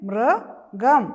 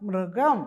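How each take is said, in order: First: Loud rising teacher model of മൃഗം; teacher sounds out മൃഗം again; drawn-out model word. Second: Said in the usual way. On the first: Shown as a demonstration. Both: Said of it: "പറഞ്ഞേ".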